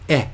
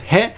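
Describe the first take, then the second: First: "e" with the h dropped; "e" as the direction particle; pronounced "e". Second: "he" said with an audible h; "he" as the hiragana usually reads; pronounced "he". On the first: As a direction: say "e" as a bare vowel, no h. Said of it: "it's pronounced e". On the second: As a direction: sound the h at the start of "he". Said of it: "isn't that pronounced he?". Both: Shown as a demonstration.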